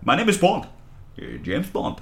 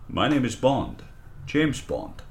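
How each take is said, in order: First: It is said sped up, sounding pseudo-Russian. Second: It is said in a normal voice.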